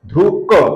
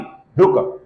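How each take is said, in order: First: The final k is released with a full vowel. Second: The final k is released almost without a vowel. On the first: The speaker calls it wrong. "ये क का पूर्ण उच्चारण है, ये उच्चारण हम नहीं करेंगे" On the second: The speaker calls it right. "ऐसा उच्चारण हम करेंगे"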